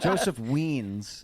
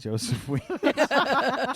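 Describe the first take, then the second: First: Said in the usual way. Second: Joseph Weens, slow and high, WEENS stretched long; drawn-out name. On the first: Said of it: "people think it's Wines". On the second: Shown as a demonstration. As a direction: say Joseph Weens slowly, drawing out Weens. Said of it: "my name is".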